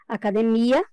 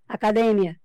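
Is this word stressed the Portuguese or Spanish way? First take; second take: Portuguese; Spanish. First: The stress falls as in Portuguese. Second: The stress falls as in Spanish. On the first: "em português" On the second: "No espanhol, falamos academia"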